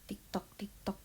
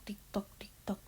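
The two takes are said the same way.

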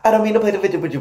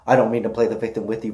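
First: The line is delivered very quickly. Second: The line is delivered at a slower pace. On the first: This is how it was said in the song. "originally, in the song, obviously, I said that really fast, and I'll show you how I said it" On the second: This is how it is said now. "And now it's"

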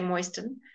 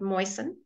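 First: The t sound is pronounced in the middle. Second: The t sound is left out completely. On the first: The speaker calls it wrong. "Sometimes you will hear people say moisten" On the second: The speaker calls it right. "but moisten"

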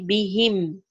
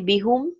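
First: The final vowel is i. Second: The final vowel is u. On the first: The speaker calls it right. "It will be bihim with a kasra" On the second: The speaker calls it wrong. "B plus hum will not be bihum"

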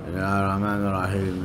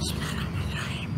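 First: It is said in a low, mumbling voice. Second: It is said in a hissing, breathy voice.

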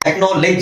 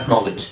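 First: The last syllable has an 'e' vowel, like 'ledge'. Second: The last syllable has a short 'i' vowel, 'lij'. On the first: The speaker calls it wrong. "ಲೆಜ್ ಅಲ್ಲ" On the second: The speaker calls it right. "ಇದು ಅದರ ಸರಿಯಾದ ಉಚ್ಚಾರಣೆ ಐ ಇದೆ"

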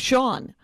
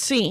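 First: The name is said like 'shawn'. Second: The name is said like 'seen'. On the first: "it's like the name Sean" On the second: "For years it was seen"

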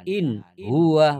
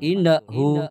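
First: The N is clear, with no hum. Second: The N bounces with an extra vowel. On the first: The speaker calls it right. "Jadi dita ditahan. In huwa begitu" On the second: The speaker calls it wrong. "Atau memantul. Innahu tidak boleh"

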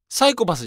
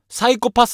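First: The pitch accent differs from that of menchikatsu. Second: The pitch accent matches that of menchikatsu. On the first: The speaker calls it wrong. "サイコパスじゃないんですよ。発音。" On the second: The speaker calls it right. "サイコパスなんですよ。"

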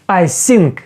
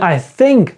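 First: The word begins with a hissing s sound. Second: The word begins with a soft th sound. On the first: The speaker calls it wrong. "замість цього звука ... будемо казати ось цей звук, який в транскрипції так і позначається с" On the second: The speaker calls it right. "І ми скажемо не I think"

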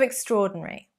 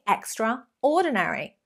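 First: The word is said in its usual reduced form. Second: The word is said fully, syllable by syllable. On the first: The speaker calls it right. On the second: The speaker calls it wrong.

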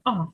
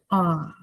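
First: The pitch moves abruptly and sharply. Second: The pitch dips down, then comes back up. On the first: "Тон різкий" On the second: "Вниз угору"

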